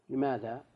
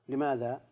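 No difference in how they are said.

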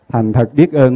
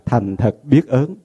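First: The last syllable has a level tone. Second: The last syllable has a high rising tone.

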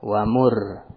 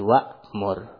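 First: There is no glottal stop before mur. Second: There is a glottal stop before mur. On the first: The speaker calls it wrong. "Allah tidak bilang" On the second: The speaker calls it right. "ada hamzahnya"

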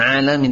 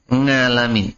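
First: The word begins with a plain vowel sound. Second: The word begins with an 'ng' sound. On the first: The speaker calls it right. "Bukan alamin" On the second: The speaker calls it wrong. "itu kalau untuk A itu nga"

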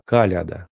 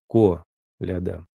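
First: The first vowel sounds like an A. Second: The first vowel sounds like a clear O. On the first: "А есть произношение через К" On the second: "Есть произношение опять через О"

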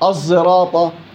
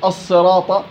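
First: The first consonant blends emphatic s with z. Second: The first consonant is a pure emphatic s. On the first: The speaker calls it right. "بين الصاد وبين الزاي" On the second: The speaker calls it wrong. "صاد خالصة"

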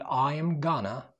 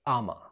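First: Going to is reduced to gonna. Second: The phrase is squeezed into one short word. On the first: "ممكن تقول I am gonna" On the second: "النهاردة تقدر تقول أما"

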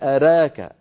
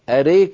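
First: The middle vowel leans only slightly toward 'ee'. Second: The middle vowel leans strongly toward 'ee'. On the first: This is the minor inclination used in the Warsh reading. The speaker calls it right. "أما ورش يقول أراك" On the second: This is the major inclination used by other readings. The speaker calls it wrong. "أريك هذا يفعله غير ورش أصحاب الإمالة الكبرى"

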